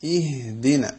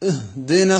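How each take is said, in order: First: The opening vowel is a clear short i. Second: The opening vowel is clipped short with a catch. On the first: The speaker calls it right. "അതേപോലെ ഉച്ചരിച്ച് ശരിയാക്കണം" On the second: The speaker calls it wrong. "ആ ഹംസക്ക് സുക്കൂനാണ് നമ്മൾ ചെയ്തത്"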